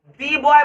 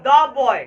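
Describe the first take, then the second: First: The word 'the' is said with a long 'ee'. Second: The word 'the' is said with a short 'uh'. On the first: The speaker calls it wrong. "दी boy बोलेंगे वहां पे तो गलती होगा" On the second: The speaker calls it right. "द द boy"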